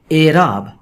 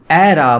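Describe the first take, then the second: First: اعراب begun with a closed 'ay' sound; long 'e' at the start of اعراب; correct pronunciation. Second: اعراب begun with an open 'ae', as in 'cat'; wide 'ae' in place of 'ay' in اعراب; mistaken pronunciation. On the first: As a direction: say اعراب clearly as 'AY-raab'. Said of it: "یہی تلفظ اس لفظ کا ٹھیک ہے". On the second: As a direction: say اعراب emphatically as 'AE-raab'. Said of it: "بجائے کہ ہم اعراب بولیں". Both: Shown as a demonstration.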